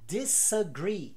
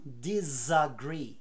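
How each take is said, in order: First: The prefix has a voiceless s sound. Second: The prefix has a voiced z sound. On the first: The speaker calls it right. "O prefixo this se mantém com som de S" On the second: The speaker calls it wrong. "e não"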